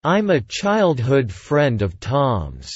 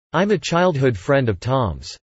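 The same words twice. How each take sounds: First: Slow, careful drill delivery; slow model reading. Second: Said in the usual way. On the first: Shown as a demonstration. Teacher repeats the sentence slowly for students to copy. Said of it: "repetition drill, slow model take". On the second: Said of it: "repetition drill, normal-speed take".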